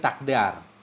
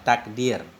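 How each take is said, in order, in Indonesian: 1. Vokal setelah d adalah a. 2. Vokal setelah d adalah i. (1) "Dengan fathahnya dal" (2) "Takdir kita baca bikasrid dal"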